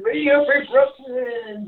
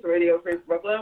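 First: Slow, mouth just rinsed; said slowly after rinsing. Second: While brushing teeth. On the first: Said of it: "let me rinse one more time". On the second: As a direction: mouth full of toothpaste. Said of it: "I am brushing my teeth". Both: Real, not acted.

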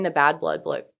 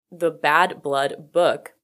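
First: Said in the usual way. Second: Slow, deliberate "the Bad Blood book"; careful self-correction. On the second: Real, not acted. Podcaster correcting a stumbled book title, slow and deliberate.

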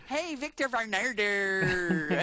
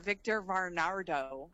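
First: Varnado hammed up, every R rolled hard, slow; big slow Hey, Victor Varnado with heavy R's; exaggerated rolled R's. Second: Varnado said slowly with heavy R's; drawn-out Victor Varnado, R's leaned on; slow rolled R's. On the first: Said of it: "So many R's". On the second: Retold or imitated. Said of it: "I love how you called Victor".

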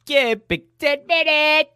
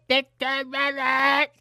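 First: Very high sung show call; high jingle call. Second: High, slow shouted call. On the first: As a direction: squeal it like a bumper jingle. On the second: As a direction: belt the jingle out high and slow. Show jingle call repeated. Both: Pretend.

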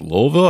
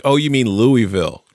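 First: "Louisville" as a puzzled LOHL-vil; her pronunciation. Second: "Louisville" said plainly LOO-ee-vil; correcting her. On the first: Retelling the Louisville girl's answer, local pronunciation. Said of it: "she's like". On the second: Host retelling correcting the girl's pronunciation, smug. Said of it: "me correcting the way". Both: Retold or imitated.

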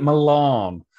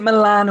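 First: "Milan" said muh-LAHN, long open a; "Milan" with the a of "father"; second pronunciation option. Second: "Milan" said muh-LAN, short a; "Milan" rhyming with "can"; first pronunciation option. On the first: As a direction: stretch the end of "Milan" to a long ah. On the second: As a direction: stress the end of "Milan" with a flat a as in "man". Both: Shown as a demonstration. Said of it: "is it Milan or is it Milan".

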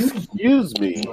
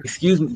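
First: "excuse me" high and drawn out; slow, higher, exaggeratedly proper "excuse me"; over-enunciated. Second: "Excuse me" shortened to 'scuse me; casual 'scuse me for "Excuse me"; clipped casual form. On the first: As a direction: stretch every syllable of "excuse me". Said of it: "you're pronunciating the whole word". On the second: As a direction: drop the first syllable of "Excuse me". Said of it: "'cause you're pronunciating the whole word". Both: Shown as a demonstration.

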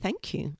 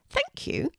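First: Said in the usual way. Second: Much higher little bird voice; grateful pigeon. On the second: Acted. Pigeon thanks Kelty for sharing cake, high grateful bird voice. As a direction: squeak it out like a small grateful pigeon.

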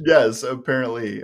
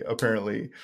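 First: Said in the usual way. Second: Softer, dry afterthought on apparently; dry quiet repeat. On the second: Shown as a demonstration. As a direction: let apparently drop off under the breath.

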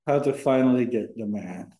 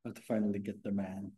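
First: Louder, projected restatement of the title; speaking up. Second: Low, soft-spoken delivery, barely projecting; too quiet. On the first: Guest boyfriend repeating the title for the host, speaking up. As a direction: say it up at full, clear volume. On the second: Guest boyfriend offering the episode title to the host, too quiet. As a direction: say it softly, under normal volume. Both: Real, not acted. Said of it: "have to speak louder though".

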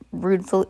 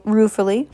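First: "rudeful" misread, then corrected; misread word. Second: "ruefully" said right after the slip; "ruefully" read properly; corrected word. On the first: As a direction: stumble over "rudeful" before fixing it. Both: Shown as a demonstration.

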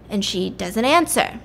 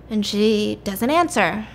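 The two takes are said the same way.

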